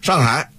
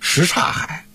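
First: It is said fast with syllables swallowed together. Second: Every syllable is said clearly and in full. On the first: The speaker calls it wrong. "你要说快了，变成上海了" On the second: The speaker calls it right. "应该叫什刹海"

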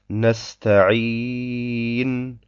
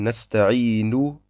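First: The word ends with no final vowel. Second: The final vowel is said at full strength. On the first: The reading stops here. "Wenn wir auf Nesta'in mit einer Sukun stehen bleiben" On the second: The reading continues. "Beim Weiterlesen würden wir sagen"

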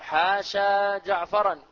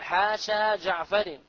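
First: The last word ends with an 'an' sound. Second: The last word ends with an 'in' sound. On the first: The exception word is treated as a verb. "يجوز بها النصب إذا اعتقدت أنها أفعال" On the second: The exception word is treated as a preposition. "ويجوز الجر إذا اعتقدت أنها ماذا؟ أنها حروف"

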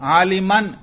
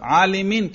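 First: The word ends with the vowel a before n. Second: The word ends with the vowel i before n. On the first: The word is in the accusative case. "نصب" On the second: The word is in the genitive case. "جار"

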